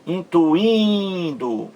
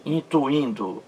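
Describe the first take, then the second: First: "Intuindo" slow, the second I high and long; stress on second I. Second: Said in the usual way. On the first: Shown as a demonstration. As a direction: stretch and push the IN before DO in "Intuindo". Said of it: "Mais forte aí". ("Intuindo" com o segundo I forte e bem alongado) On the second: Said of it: "veja aí".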